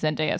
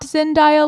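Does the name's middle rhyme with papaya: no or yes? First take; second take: no; yes. First: The name is said not rhyming with papaya. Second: The name is said to rhyme with papaya. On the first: The speaker calls it right. "It is definitely Zendaya" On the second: The speaker calls it wrong. "not Zendaya like papaya, as some people like to assume"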